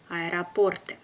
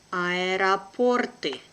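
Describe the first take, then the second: First: Brisk, natural native speed; quick native pace. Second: Slow and careful, drawn out for learners; teacher's careful slow reading. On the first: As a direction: say it fast like a native. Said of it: "second time will be quickly, like a native". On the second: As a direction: spell it out slowly for the class. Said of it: "one first time will be slow". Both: Shown as a demonstration.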